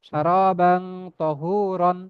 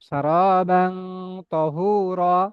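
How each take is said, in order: First: The last word ends with an 'an' sound. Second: The last word ends in a plain 'a', no 'n'. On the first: This is the word's full form without stopping. "মূলত শব্দটা কি, উচ্চারণটা তহুরন" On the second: The reader stops at the end of the verse. "যদি থেমে পড়ি আয়াতের শেষ শব্দ, এই জন্য আমি থেমে পড়তেছি এটা।"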